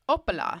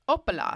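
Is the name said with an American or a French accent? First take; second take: French; French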